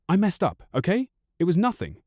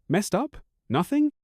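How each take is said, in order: First: A high, hurried plea; tearful plea. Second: Incredulous echo. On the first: Wife pleads as he heads for the door, tearful. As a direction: beg him to stay, near tears. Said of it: "fast tears welling up". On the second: Husband echoes wife's excuse back, incredulous and rising. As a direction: pitch leaps up in disbelief. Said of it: "I almost laugh". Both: A narrator's reading.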